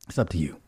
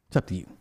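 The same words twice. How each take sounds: The two takes are said the same way.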